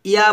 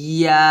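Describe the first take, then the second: First: ইয়া said quickly with no held ee glide; mistaken short YA. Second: ইয়া with a long held ee opening into a louder aa; correct held YA. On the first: Teacher shows what not to say, short loose ইয়া. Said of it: "ইয়া বলা যাবে না". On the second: Teacher shows what must be said, held ইয়া. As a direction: press and hold the glide of ইয়া. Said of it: "বলতে হবে". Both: Shown as a demonstration.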